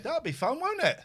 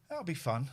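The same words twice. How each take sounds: First: Sing-song, much higher pet talk; high cooing. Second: Said in the usual way. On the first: Real, not acted. Owner coaxing the cat before bandaging, high cooing.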